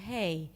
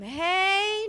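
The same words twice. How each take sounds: First: It is said at a lower pitch. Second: It is said at a high pitch. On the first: The speaker calls it right. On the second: The speaker calls it wrong.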